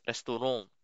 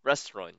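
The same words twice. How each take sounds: First: "restaurant" said res-tu-RONG, nasal French end. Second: "restaurant" said RES-trawn, English style. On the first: Teacher contrasting French and English "restaurant" for learners. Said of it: "pag French fries". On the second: Teacher contrasting English with French "restaurant" for learners. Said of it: "Pag English". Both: Shown as a demonstration.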